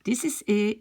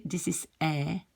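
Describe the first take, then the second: First: "E" said as closed, ay-like é. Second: "E" said as an open eh. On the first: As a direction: keep "E" close and tight as in French é. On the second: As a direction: open "E" out to French è. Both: Shown as a demonstration. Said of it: "so the accent changes".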